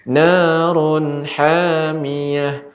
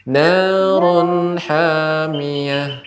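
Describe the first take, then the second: The two takes are said the same way.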